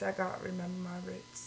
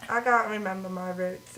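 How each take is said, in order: First: Much softer, back to proper English; posh English accent again. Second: Said in the usual way. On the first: Shown as a demonstration.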